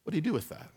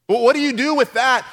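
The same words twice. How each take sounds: First: Quiet, low, pondering; soft question. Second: Louder and higher, pressing the crowd; loud question. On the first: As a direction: ask it softly to yourself. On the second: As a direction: throw the question out to the congregation. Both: Shown as a demonstration.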